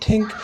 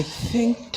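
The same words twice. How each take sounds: First: "think" said as "tink"; hard T at the start of "think", pitched higher; accented "think". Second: Said in the usual way. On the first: Pretend. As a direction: swap the TH in "think" for a T, Irish style. Repeats word in put-on accent.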